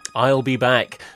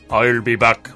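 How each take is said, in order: First: It is said in the speaker's own plain accent. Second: It is said in an imitated Austrian-style accent.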